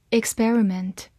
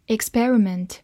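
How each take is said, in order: Both takes have the same delivery.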